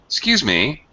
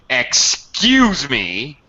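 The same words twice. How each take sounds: First: It sounds polite, with a falling-rising tune. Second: It sounds rude and sarcastic. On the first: A courteous request for attention or repetition. "You can be very polite. ... using the drop rise" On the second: Offense or indignation at what someone did. "Or you can be very rude and sarcastic"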